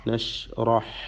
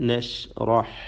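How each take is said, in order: The two takes are said the same way.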